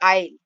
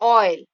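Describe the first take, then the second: First: The first vowel is an open 'ah' sound. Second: The first vowel is a rounded 'aw' sound. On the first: The speaker calls it wrong. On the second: The speaker calls it right.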